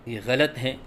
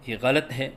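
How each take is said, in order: The two takes are said the same way.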